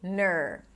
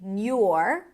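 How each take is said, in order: First: The syllable has a reduced schwa vowel. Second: A y glide comes before the vowel. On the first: "if you want to make it super easy, just say ner" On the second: "nor with a y sound"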